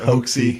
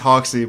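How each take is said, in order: First: The first syllable sounds like the word hoax. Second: The first syllable sounds like the word hocks. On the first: The speaker calls it wrong. "I hope that's really how you pronounce it" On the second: The speaker calls it right. "I think it's Hoxie"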